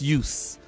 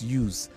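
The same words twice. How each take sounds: First: It is said in the noun form. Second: It is said in the verb form. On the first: The word names a thing. "So the noun is use" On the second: The word names an action. "the action part is use"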